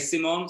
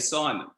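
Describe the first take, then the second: First: The name is pronounced the French way. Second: The name is pronounced the American way. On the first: "I say Simon ... that's his name" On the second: "the Americans say"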